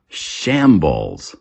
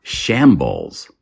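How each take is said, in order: Both takes have the same delivery.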